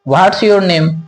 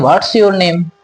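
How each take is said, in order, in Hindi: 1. 'What is' सिकुड़कर 'what's' हो जाता है। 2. 'What is' सिकुड़कर 'what's' हो जाता है।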